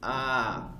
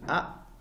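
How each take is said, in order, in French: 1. La voyelle est allongée. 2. La voyelle se prononce brève. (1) "on va les allonger" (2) "au lieu de lire A"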